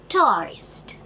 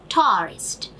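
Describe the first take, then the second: Both takes have the same delivery.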